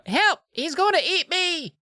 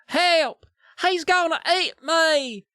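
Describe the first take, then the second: First: It is said in a plain accent. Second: It is said in a Southern accent.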